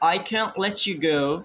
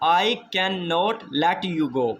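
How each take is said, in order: First: The negative is shortened to one syllable. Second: The negative is said in full. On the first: "we speak can't. We are using contraction here" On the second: "instead of speaking a cannot"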